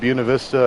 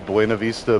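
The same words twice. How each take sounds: First: It is said with an anglicized English pronunciation. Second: It is said with a Spanish pronunciation. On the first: This is how locals say the town's name. "We call it" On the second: This is the original form that outsiders use. "I know it's supposed to be"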